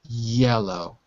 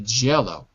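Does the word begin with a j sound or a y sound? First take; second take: y sound; j sound. First: The word begins with a y sound. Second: The word begins with a j sound. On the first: The speaker calls it right. "Just like the the word yellow" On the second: The speaker calls it wrong. "It would be wrong to say Jello"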